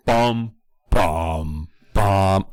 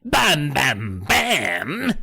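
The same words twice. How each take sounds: First: Sung, suspense cue intoned by voice; sung, intone a mock cliffhanger sting; sung, dramatic sting. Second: Put-on high dramatic sting in London accent; gentleman's London accent. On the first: Sung, podcaster capping the kids' freak-out, dramatic sting. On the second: Sting in the gentleman's language, comic London accent. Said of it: "in the language of our gentleman".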